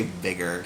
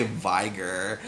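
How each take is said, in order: First: "vigor" with a short i, as in big. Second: "vigor" with a long i, as in tiger. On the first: Explaining a word avoided for what it sounds like, short-i "vigor". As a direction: say "vigor" to rhyme with bigger. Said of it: "I don't say vigor 'cause it sounds like". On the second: Giving the preferred way to say it, long-i "vigor". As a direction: say "vigor" like VY-ger. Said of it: "I say vigor". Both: Shown as a demonstration.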